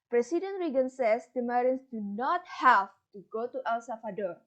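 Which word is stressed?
have to. The stress falls on the words have to.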